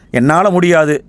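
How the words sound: It sounds like a firm, unwilling refusal.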